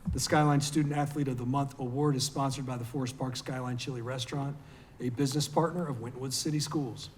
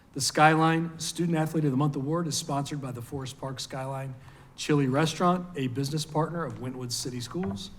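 The two takes are said the same way.

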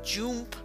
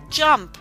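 First: The vowel sounds like the letter name U. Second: The vowel is a short u sound. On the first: The speaker calls it wrong. "We don't say jump" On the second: The speaker calls it right. "we say jump"

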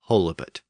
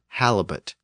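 First: The first vowel is a long O sound. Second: The first vowel is a short A sound. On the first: This is the form the word would have by rule. "Theoretically, it should be pronounced holibut" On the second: This is the form the word actually took. "that first syllable tended to be pronounced short"

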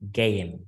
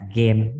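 First: The vowel is a gliding ay sound. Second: The vowel is a short plain eh sound. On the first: The speaker calls it right. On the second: The speaker calls it wrong. "game là sai rồi"

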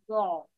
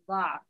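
First: The first consonant is followed by a 'u' vowel. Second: The first consonant is followed by an 'a' vowel. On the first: "ضاد بالضمة" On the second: "ضاد بالفتحة"

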